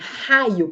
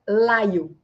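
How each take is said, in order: First: The word begins with a guttural R sound. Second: The word begins with an L sound. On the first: The speaker calls it right. "O raio é o r" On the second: The speaker calls it wrong. "Aí ele fala uh, laio, ... não é o fonema alvo"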